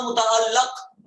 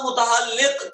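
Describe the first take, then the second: First: متعلق slow with short a, "muta'allaq"; zabar reading. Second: متعلق slow with short i, "muta'alliq"; zer reading. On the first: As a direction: end متعلق slowly on -laq. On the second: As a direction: end متعلق slowly on -liq. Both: Shown as a demonstration. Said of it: "آپ کا زبر automatically لگنا چاہیے".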